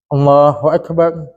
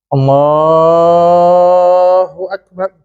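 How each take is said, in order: First: The phrase is said short and quick. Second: The phrase is drawn out long.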